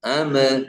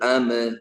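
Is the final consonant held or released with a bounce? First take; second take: released; released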